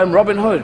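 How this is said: It is said in an English accent.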